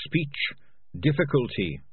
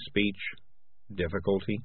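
First: Higher, innocent rat voice; higher-pitched little rat; earnest rat. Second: Sinking, gloomy cat. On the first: Acted. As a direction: state it innocently as a small rat. Beans says it before Morris repeats. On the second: A narrator's reading. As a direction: repeat it glumly as a dawning question. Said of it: "said Morris gloomily".

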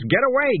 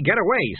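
First: A much higher, louder yelp of get away; cat faking an involuntary outburst; sudden outburst. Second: Cat repeating the fake fit; repeated outburst. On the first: Acted. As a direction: blurt get away out high and loud. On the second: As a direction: get away again, high but dropping back. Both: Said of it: "I just burst out and say things".

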